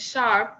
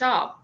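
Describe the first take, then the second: First: The r after the vowel is pronounced fully. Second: The r after the vowel is dropped.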